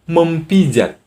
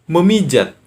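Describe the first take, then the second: First: The p sound is kept after 'mem'. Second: The p sound is replaced by m. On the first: The speaker calls it wrong. "Apa pernah kalian berkata mempijat? Tidak kan?" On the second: The speaker calls it right. "Yang benar adalah memijat"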